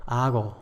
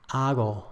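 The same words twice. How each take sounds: Both takes have the same delivery.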